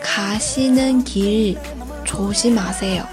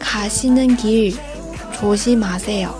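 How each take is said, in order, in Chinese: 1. 语气平稳，没有起伏。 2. 语气平稳，没有起伏。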